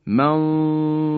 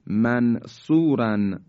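First: منصوراً recited with the ن hidden and a full, heavy ص; heavy ikhfa recitation. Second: Said in the usual way. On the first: Shown as a demonstration. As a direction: Quranic recitation with a nasal hum before the heavy letter. (تلاوت منصوراً با اخفای نون و صاد درشت) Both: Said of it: "به این مثال توجه بفرمایید".

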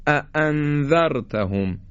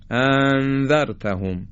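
First: "اَأَنذَرْتَهُمْ" with two firm, separated glottal stops; separate, heavy hamzas. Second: "اَأَنذَرْتَهُمْ" as one long joined opening vowel; hamzas run together. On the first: Teacher models the correct اَأَنذَرْتَهُمْ, two distinct hamzas. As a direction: hit both hamzas of "اَأَنذَرْتَهُمْ" apart, with full control. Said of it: "خیلی جدا و سنگین ادا بکنیم هر دو رو". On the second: Teacher shows the wrong اَأَنذَرْتَهُمْ, hamzas joined. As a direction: merge both hamzas of "اَأَنذَرْتَهُمْ" without a break. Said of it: "یا اینکه به هم دیگه وصل کنیم".

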